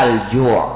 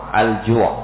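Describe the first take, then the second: No difference in how they are said.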